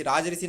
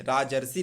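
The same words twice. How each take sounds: First: राजर्षि said as raaj-rishi; wrong form राजर्षि. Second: राजर्षि said as raa-jar-shi; correct form राजर्षि. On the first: Teacher rejects the wrong spelling, mistaken form. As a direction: put RI after ज in राजर्षि. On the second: Teacher corrects the spelling, joined form. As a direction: put R before the last syllable of राजर्षि. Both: Shown as a demonstration. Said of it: "राजर्षि नहीं".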